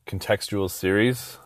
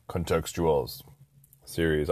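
First: "contextual series" said slowly as if in air quotes; slow down on "contextual series" like quoting it. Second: Said in the usual way. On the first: Shown as a demonstration. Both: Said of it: "I just did air quotes".

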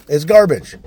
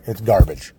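First: Garbage shouted louder and higher; host condemning rap music, shouting it; loud repeat. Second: Said in the usual way. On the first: Real, not acted. Real angry shout.

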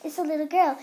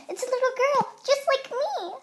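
First: Said in the usual way. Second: Much higher and louder, thrilled; excited. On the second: Acted. Noah meets baby sister, thrilled and much higher. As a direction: gush it the second time round.

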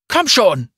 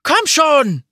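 First: High, loud frantic cry; repeated shout. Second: High, loud desperate scream. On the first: Akali tearing at bricks, shouting loudly in desperation. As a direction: yell it again, digging frantically. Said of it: "wiederholte Akali". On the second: Someone digging through rubble, screaming loudly in despair. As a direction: scream it out at full voice. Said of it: "schrie jemand". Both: A narrator's reading.

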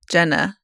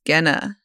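First: Jenna with a soft opening consonant, as in genre or jet; soft-G pronunciation. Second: Genna with a hard G, as in get; hard-G pronunciation. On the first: Co-host covering all the bases, soft-G Jenna. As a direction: soften the first sound of Jenna. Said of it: "We can say it all". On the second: Co-host answering how to say the name, hard-G Genna. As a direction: open Genna on a g-as-in-go sound. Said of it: "I think it's Genna". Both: Shown as a demonstration.

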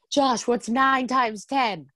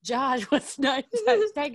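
First: Slow, high taunting call; mock taunting yell. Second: High taunt broken by a laugh. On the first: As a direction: tease him in a slow sing-song. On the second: Retold or imitated. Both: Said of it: "he kept yelling to him".

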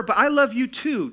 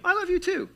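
First: Loud, high insistent reassurance; mock-earnest cheating husband; placating cheater. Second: Very high, light sweet reply; affectionate echo, pitched way up; loving reply. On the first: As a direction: push the excuse on a doubting wife. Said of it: "That does not work". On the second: Acted. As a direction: answer an I-love-you in a high voice. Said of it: "That's a good thing".

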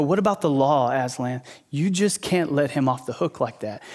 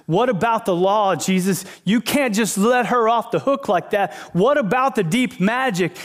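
First: Lightly voiced accuser, held back; understated challenge over a broken law. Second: Raised pitch, insistent objection; worked-up, higher-pitched mock challenge; protesting Pharisee. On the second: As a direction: imitate an official protesting a broken rule. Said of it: "this Pharisee goes to Jesus and goes".

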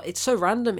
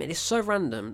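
First: So pushed up and louder; it's so random with a loud so; stress on so. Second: Said in the usual way. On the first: Real, not acted. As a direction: lean hard on so.

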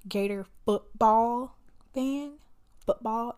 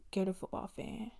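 First: "football" punched loud and drawn out; slow down and hit "football" hard; stress on football. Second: Said in the usual way. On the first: Real, not acted. Fan telling viewers which team she backs, "football" heavily stressed. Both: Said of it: "emphasis on the football".

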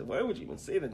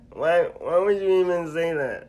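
First: High-pitched wounded protest at usual volume; hurt protest. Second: High, very loud comic wail of protest; hammed-up comedian shriek of wounded disbelief; Kevin Hart. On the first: Retold or imitated. Friend retelling his reply to being called weak, hurt protest. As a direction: plead in a higher voice, wounded. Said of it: "do that in your Kevin Hart voice". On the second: Friend acting out his shock at being called weak, Kevin Hart impression. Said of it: "Do it in your Kevin Hart voice".

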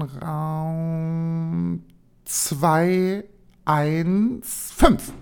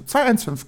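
First: Very slow, drawn-out zwei eins fünf; reading the number slowly. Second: Said in the usual way. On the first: Shown as a demonstration. (sehr langsam gedehnt: zwei eins fünf) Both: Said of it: "sag ich so, zwei eins fünf".

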